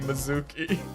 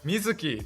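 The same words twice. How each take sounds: First: The name is said with English-style pronunciation. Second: The name is said with Japanese-style pronunciation. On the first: The speaker calls it wrong. "You gotta stop saying Mizuki" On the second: The speaker calls it right. "It's Mizuki"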